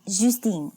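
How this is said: The name is said with French pronunciation.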